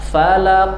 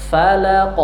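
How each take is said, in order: The two takes are said the same way.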